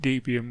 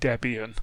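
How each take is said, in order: First: The word begins with a long 'dee' sound. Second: The word begins with a short 'deb' sound. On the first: The speaker calls it wrong. "I got into the habit of calling it Debian when I first started" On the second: The speaker calls it right. "I should call it Debian"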